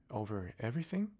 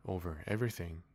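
First: Higher, rising disbelieving question; astonished echo. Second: King answering simply. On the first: Little prince doubting the king's claim, higher rising. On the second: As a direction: state it grandly and simply. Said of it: "with magnificent simplicity". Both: Acted.

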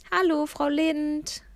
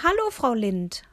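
First: Bright, drawn-out friendly hello, a little higher; slow, lifted friendly greeting. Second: Slightly louder repeated hello; firmer, a touch louder greeting; a bit louder. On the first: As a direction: call out a kind hello across the street. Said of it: "rief ich ihr freundlich zu". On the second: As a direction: repeat the hello for someone hard of hearing. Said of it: "wiederholte ich etwas lauter". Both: A narrator's reading.

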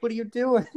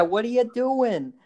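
First: High mock New York Jewish mom asking; a Larry David-ish New York mom; New York Jewish accent. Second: High, slow nasal-free New York Jewish mom; drawn out New York Jewish "What are you doing?"; New York Jewish accent. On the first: Mom catching her son, New York Jewish accent. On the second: Retold or imitated. Mom confronting her son in New York Jewish accent. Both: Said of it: "the most New York Jewish accent, like Larry David".

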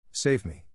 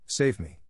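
First: Repeating the plea with the same light melodrama; a second stage cry for rescue, understated; mock frantic cry, once more. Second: Hammed-up stage plea for rescue; begging to be saved, lightly overplayed; mock frantic cry. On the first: Joe rehearsing for her sister, a mild mock frantic plea. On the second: Joe showing Amy the scene, a mildly hammed-up frantic cry. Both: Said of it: "crying frantically".

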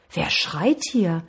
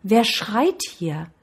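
First: Slow, drawn-out question; curious call. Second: Slow echoed question, lightly voiced. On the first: Boy calls into the mountains, slow curious question. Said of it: "Nun war seine Neugierde geweckt". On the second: Mountain answers the curious boy, slow echoing call. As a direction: send the question back as an echo. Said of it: "wieder hörte er die Stimme". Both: A narrator's reading.

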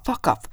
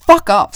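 First: Said in the usual way. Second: "Fuck off" blasted much louder; shouted fuck off. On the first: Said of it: "Han bara". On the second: Retold or imitated. Shouting "Fuck off" back at the neighbour. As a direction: bark "Fuck off" back at him. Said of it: "säger jag".

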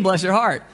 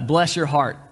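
First: Higher-pitched, well-meant sympathy; really mean it, lightly lifted; sincere. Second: Said in the usual way. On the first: Shown as a demonstration. Preacher showing the kind meaning of a Southern phrase, sincere. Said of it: "It might really mean". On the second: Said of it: "Depends on the tone".

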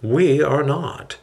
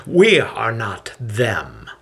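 First: Slow, calm agreement; composed, measured answer; calm reply. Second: Slow, sneering emphasis on each word; measured, sneering retort. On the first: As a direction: concede it calmly, taking your time. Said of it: "Hillel calmly replies". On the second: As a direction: draw it out with understated contempt. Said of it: "Elam sneers as he raises a fist". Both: A narrator's reading.

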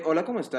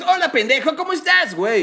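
First: Softer, deadpan, lifeless greeting; mock flat cartoon greeting; flat English-dub voice. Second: Much higher, punchy cartoon greeting; hammed-up Latin American dubbing voice; lively Mexican dub. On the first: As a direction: say it flat like a dull original dub. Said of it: "hablan súper tranquilos". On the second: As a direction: throw it out like an over-the-top Mexican dub. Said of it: "Y el otro pendejo es".

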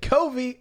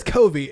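First: "Kobe" drawn out high, as KOH-vee; reverent Kobe inflection. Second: "Kobe" said with a v, KOH-vee; quoted covid pronunciation. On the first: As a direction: stretch "Kobe" like the late player's name. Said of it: "the same inflection that we gave". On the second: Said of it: "Well, he says Kobe". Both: Shown as a demonstration.

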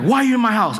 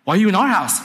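First: Higher-pitched mild mock yell; retold scream. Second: Higher-pitched comeback with OUR punched; indignant retort. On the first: Preacher retelling his friend confronting strangers in their house, mock scream. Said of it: "And he's screaming". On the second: Retold or imitated. Preacher imitating the residents answering an intruder, indignant stress on OUR. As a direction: throw it back, leaning hard on OUR. Occupants answer back in retold quarrel.

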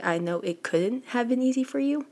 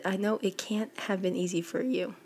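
First: "couldn't" offered as the fix, pitched higher; corrected wording. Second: Said in the usual way. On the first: Shown as a demonstration. Reader correcting a suspected typo, "couldn't" pitched higher. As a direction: raise the pitch on "couldn't" and what follows. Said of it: "'cause it shouldn't be". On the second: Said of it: "it's weird".

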